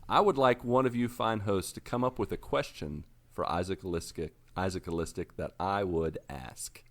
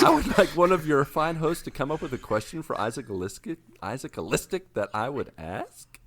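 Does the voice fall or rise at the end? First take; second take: falls; rises. First: The voice falls at the end, like a statement. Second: The voice rises at the end, like a question.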